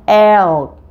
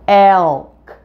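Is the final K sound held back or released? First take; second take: released; released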